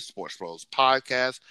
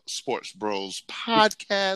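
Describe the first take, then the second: First: Said in the usual way. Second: Slow, drawn-out announcer plug. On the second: Pretend. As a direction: stretch each word like a radio host. Repeating the podcast name, drawn out.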